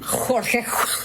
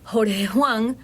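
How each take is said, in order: First: The J is a harsh, strongly marked rasp. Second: The J is a soft, light breath. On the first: This is how people in Spain say it. "Y ellos dicen" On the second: This is how people at home say it. "nosotros decimos"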